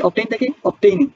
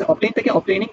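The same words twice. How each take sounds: First: "obtaining" said slowly and carefully; slow pronunciation demo. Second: Said in the usual way. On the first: Shown as a demonstration. Teacher slowly models the ing form. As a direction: spell out "obtain থেকে obtaining" slowly for students. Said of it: "obtain মানে কি?". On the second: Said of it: "ঠিক আছে?".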